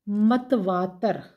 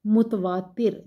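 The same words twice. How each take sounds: First: मतवातर slowly, ma-t-vā-tar; wrong pronunciation. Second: मुतवातिर with u first and i before r; correct pronunciation. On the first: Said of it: "मतवातर नहीं है". (गलत उच्चारण मतवातर, धीरे) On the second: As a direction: teach मुतवातिर carefully. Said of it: "सही इसका तलफ़ुज़ है". (सही उच्चारण मुतवातिर) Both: Shown as a demonstration.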